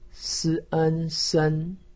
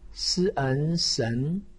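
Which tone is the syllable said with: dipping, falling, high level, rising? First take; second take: high level; rising. First: The pitch stays high and level. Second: The pitch rises from mid to high. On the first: "一声" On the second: "二声"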